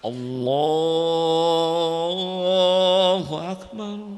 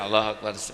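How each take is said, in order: First: It is said slowly and drawn out, melodiously. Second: It is said short and quick, without melody.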